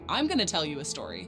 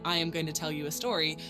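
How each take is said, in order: First: It is contracted, with 'going to' reduced to 'gonna'. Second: Every word is said in full, unreduced. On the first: "people often say, ... It sounds more natural and friendly" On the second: "Instead of saying"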